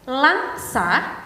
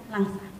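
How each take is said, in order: First: The word is articulated clearly and distinctly. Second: The word is articulated unclearly and indistinctly. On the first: The speaker calls it right. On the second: The speaker calls it wrong.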